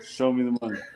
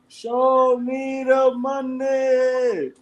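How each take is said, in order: First: It is said plainly, without much force. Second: It is shouted with forceful energy.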